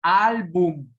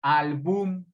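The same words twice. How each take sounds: First: Álbum slow and stressed ÁL-bum; como palabra grave. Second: Álbum said wrongly as al-BÚM; como palabra aguda. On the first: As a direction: hit the first syllable AL of álbum, stretching it. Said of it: "es grave". (álbum lento, con fuerza en ÁL) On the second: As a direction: shift the stress of Álbum to the last syllable. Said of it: "no suena bien". (Álbum como albúm, con fuerza en BUM) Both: Shown as a demonstration.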